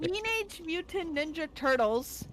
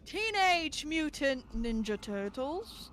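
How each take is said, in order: First: It is read out in a plain manner. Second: It is recited dramatically like a poem.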